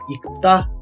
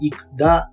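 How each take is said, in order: First: The second syllable starts with a tense t. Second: The second syllable starts with a plain d. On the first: The speaker calls it right. "いくたとなるんですよね" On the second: The speaker calls it wrong. "いくだではなく"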